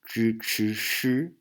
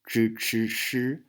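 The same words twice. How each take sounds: First: It is said with a mainland China accent. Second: It is said with a mainland China accent.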